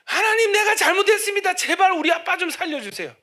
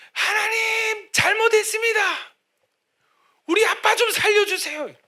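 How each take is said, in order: First: Pleading cry, high and loud; desperate shouted prayer. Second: Crying out high and loud to God; desperate shouted prayer. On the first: Son begging God for his father, loud crying prayer. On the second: Son on his knees outside surgery, shouting his prayer. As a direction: beg God loudly for father's life. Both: Retold or imitated. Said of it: "소리를 지른 거예요".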